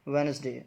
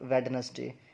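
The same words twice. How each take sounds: First: The middle d sound is silent. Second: The middle d sound is pronounced. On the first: The speaker calls it right. "But डी जो है वो यहाँ पे silent है" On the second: The speaker calls it wrong. "हम लोग इसको वेडनेसडे करके बोलते हैं क्योंकि डी है"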